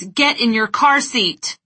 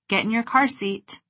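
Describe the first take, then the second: First: It is said loudly in an angry tone. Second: It is said in a relaxed, warm tone. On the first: "With eyes wide, big gestures, and a loud, angry tone of voice" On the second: "With a relaxed face and a warm tone of voice"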